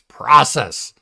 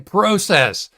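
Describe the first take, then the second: First: It is said with an American pronunciation. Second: It is said with a Canadian pronunciation. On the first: The speaker calls it right. "It's process" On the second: The speaker calls it wrong. "They say process"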